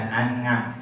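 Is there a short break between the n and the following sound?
No. The n runs straight on without a break. The speaker calls it wrong. "Jadi bukan an'am"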